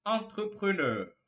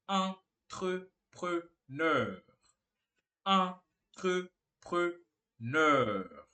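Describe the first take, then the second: First: Said in the usual way. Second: Entrepreneur in four separate, spaced syllables; long pauses between each syllable; slow syllable-by-syllable demo. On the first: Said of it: "Mais uma vez". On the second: Shown as a demonstration. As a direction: sound it out very slowly for learners. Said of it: "você fala simplesmente".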